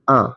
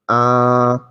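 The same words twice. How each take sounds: First: The vowel is short and clipped. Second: The vowel is held long and drawn out. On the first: "These are short" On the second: "alif mad ... Elongation"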